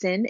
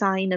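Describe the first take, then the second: First: It is said with a short vowel, like 'sin'. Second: It is said with a long vowel, like 'sign'. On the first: The speaker calls it wrong. "we don't pronounce this as sin" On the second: The speaker calls it right. "it's sine of x"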